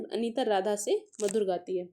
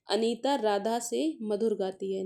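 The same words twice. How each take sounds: First: से given the main stress in the sentence. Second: Said in the usual way. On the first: Shown as a demonstration. Teacher pointing students to the relational word, stress on से. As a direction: lean on the word से to mark the relation. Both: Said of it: "संबंध सूचक अवयव किस में है?".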